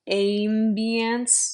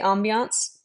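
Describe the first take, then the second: First: The word is said with exaggerated, over-careful vowels. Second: The word is said plainly and naturally. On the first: The speaker calls it wrong. "you don't say ambience ... it's not getting all weird" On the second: The speaker calls it right. "When we say ambiance"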